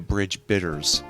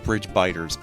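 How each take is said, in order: First: The second word has a short 'i' vowel. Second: The second word has a long 'i' vowel. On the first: It sounds like a bitter drink. The speaker calls it wrong. "bridge bitters makes it sound like there's going to be coffee involved" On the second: It means things that bite. The speaker calls it right. "really supposed to be bridge biters"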